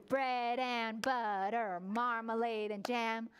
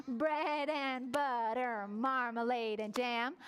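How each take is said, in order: No difference in how they are said.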